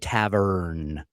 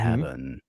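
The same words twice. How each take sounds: First: The R sound is clearly pronounced. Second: The R sound is dropped. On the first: "We had a hard R's in there" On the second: "not the"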